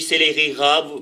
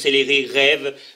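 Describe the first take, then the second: First: The last syllable has an open 'ah' vowel. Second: The last syllable has an 'eh' vowel. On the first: This is the speaker's own way of saying it. "moi je dis céleri rave" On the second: This is another acceptable way of saying it. "mais on peut dire céleri rêve"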